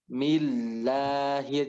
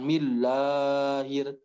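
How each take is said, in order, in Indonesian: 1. Vokal panjangnya ditahan selama dua ketukan. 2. Vokal panjangnya ditarik terlalu panjang.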